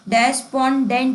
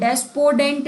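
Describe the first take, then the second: First: The middle syllable has an n sound. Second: The middle syllable has no n sound. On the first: The speaker calls it right. "डेस्पोंडेंट ही होता है" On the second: The speaker calls it wrong. "डेस्पोडेंट नहीं होता है"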